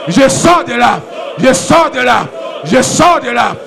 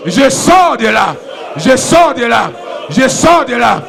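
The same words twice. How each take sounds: The two takes are said the same way.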